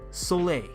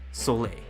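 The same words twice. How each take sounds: First: It is said in a higher voice. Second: It is said in a lower voice.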